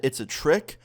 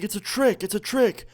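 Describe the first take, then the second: First: Said in the usual way. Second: High mock shout at normal volume; imitated yelling. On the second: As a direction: repeat it high, like a friend calling a warning. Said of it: "one of my friends starts yelling".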